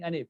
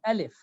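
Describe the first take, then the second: First: The middle consonant is an N sound. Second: The middle consonant is an L sound. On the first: This is what was actually said. The speaker calls it wrong. "but he was saying anif" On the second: This is what the speaker intended to say. The speaker calls it right. "He himself considered that he is saying alif"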